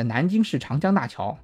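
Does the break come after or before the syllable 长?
before. The break falls between 南京市 and 长江大桥. It names the Nanjing Yangtze River Bridge. The speaker calls it right. "如果我们模仿一下"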